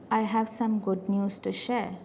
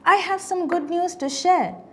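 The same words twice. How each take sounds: First: The tone sounds forced, not matching good news. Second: The tone sounds cheerful, matching good news. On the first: The news may not really be good. The speaker calls it wrong. "or is it a forceful good news? ... the vocal tone doesn't match to the message" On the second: The news is genuinely good. The speaker calls it right. "I should be explaining or expressing in this manner"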